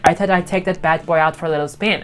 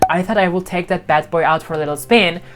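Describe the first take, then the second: First: The word 'would' is contracted to 'I'd'. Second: The word 'would' is said in full. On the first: "it's so hard to hear that" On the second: "Instead of saying"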